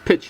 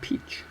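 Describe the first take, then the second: First: The vowel is short, as in 'pitch'. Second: The vowel is long, as in 'peach'. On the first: The speaker calls it right. "It's pitch" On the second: The speaker calls it wrong. "not peach"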